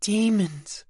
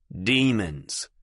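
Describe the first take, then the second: First: Higher, uncertain testing tone; trying the word. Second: Cool, even tone. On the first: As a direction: taste the unfamiliar word. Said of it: "trying the word on". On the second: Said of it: "in a cool, even tone". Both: Acted.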